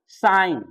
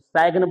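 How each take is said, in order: First: The g is silent, said like sine. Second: The g is sounded with an ai vowel. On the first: The speaker calls it right. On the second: The speaker calls it wrong. "या तो सैग्न बोल देते हैं, दो mistake"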